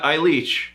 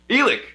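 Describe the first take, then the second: First: The name is said as 'Eileach'. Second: The name is said as 'Elik'. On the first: The speaker calls it wrong. "not Eileach, because it looks like Eileach" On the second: The speaker calls it right.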